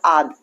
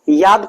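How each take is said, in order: First: The word begins with a vowel sound. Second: The word begins with a y sound. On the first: Older people say it this way. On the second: This is the standard form.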